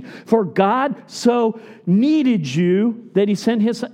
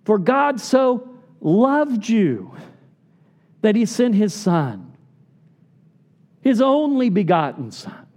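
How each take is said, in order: First: Misquoting John three sixteen on purpose; slow, stressing needed, rising at the end; wrong version. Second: Firm, deliberate reading of loved; correct version. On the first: Preacher reads the wrong verse to congregation, slow and stressed. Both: Shown as a demonstration.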